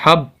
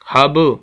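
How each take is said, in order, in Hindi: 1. अंतिम b बिना छोड़े एकदम रुक जाता है। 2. अंतिम b गूंजती उछाल के साथ छोड़ा जाता है। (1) "अगर हम कलकला नहीं करते तो फिर हब, आवाज़ वहीं रुक जाती है" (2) "आवाज़ के अंदर थोड़ी सी हरकत, वाइब्रेशन"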